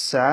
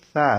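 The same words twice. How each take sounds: First: First "সা" with a hissing s; sharp, audible s opening "সা"; audible sin. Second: "সা" as a soft th; no hiss escaping at the start of "সা"; soundless soft tha. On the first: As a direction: let the s of "সা" sound outward. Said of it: "শব্দ বাইরে হবে". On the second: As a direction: say "সা" softly as Arabic tha. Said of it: "কোনো শব্দ বাইরে হবে না". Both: Shown as a demonstration.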